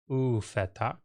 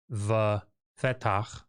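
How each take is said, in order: First: The word begins with an 'oo' sound. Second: The word begins with a 'v' sound. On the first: The speaker calls it right. "you end up saying u fetach" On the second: The speaker calls it wrong. "instead of saying the fetach"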